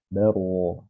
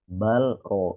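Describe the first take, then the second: First: The L merges into the following R sound. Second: The L is pronounced clearly before the R. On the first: The speaker calls it right. "Diidghamkan huruf ro-nya" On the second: The speaker calls it wrong. "Jangan dijelas"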